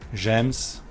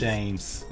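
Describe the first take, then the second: First: The vowel is short, like in gem. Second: The vowel is long, like in rain. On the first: The speaker calls it wrong. "there is no difference for me" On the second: The speaker calls it right. "There, you got it"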